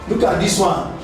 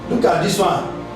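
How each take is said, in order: Both takes have the same delivery.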